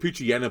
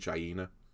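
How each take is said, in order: First: The name is run together without a full 'hyena'. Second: The name is split as 'pooch' plus 'hyena'. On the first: The speaker calls it wrong. "I always call it Poochyena, but I don't think that's how you meant to say it" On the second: The speaker calls it right. "I think it's meant to be Pooch Hyena"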